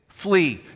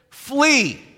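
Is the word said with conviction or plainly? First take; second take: plainly; conviction. First: The word is said plainly, without extra force. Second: The word is said forcefully, with strong conviction. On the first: "Say it with me" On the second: "Now say it with conviction"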